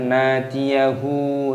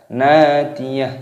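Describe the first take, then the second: First: The word ends with an added 'u' vowel. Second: The word ends on a silent final consonant. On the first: The speaker calls it wrong. "jangan nadiyahu" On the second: The speaker calls it right. "ketika waqaf berhenti maka dimatikan, dibaca nadiyah"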